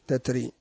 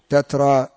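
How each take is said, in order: First: The word's final vowel leans toward 'e'. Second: The word ends in a plain open 'a' vowel. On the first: "والوقف عندها يكون بالياء" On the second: "بالتنوين ويقفون بالألف"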